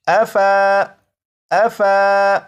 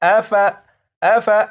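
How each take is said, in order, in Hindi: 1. f के बाद का स्वर लंबा खींचा जाता है। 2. f के बाद का स्वर छोटा रखा जाता है। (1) "इस तरह से नहीं पढ़ेंगे" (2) "बल्कि"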